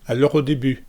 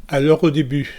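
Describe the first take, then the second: The two takes are said the same way.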